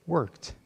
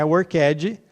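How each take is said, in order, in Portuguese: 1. A terminação é só um som de t, em uma sílaba. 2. A terminação é pronunciada como uma sílaba extra. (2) "Não é worked"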